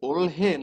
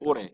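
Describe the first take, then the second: First: It is said with an l and h sound. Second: It is said smoothly with no h sound. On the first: The speaker calls it wrong. "এটা আমরা কি উচ্চারণ করব, ওলহে নাকি ওরে?" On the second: The speaker calls it right.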